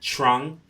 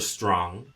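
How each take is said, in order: First: It is said with a Jamaican Patois pronunciation. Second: It is said with a Standard English pronunciation.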